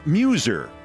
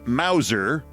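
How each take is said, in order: First: The name is said like Muser. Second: The name is said like Mauser. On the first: The speaker calls it right. "It's it's Muser" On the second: The speaker calls it wrong. "I'm thinking I'm mispronouncing it. Yes, I am"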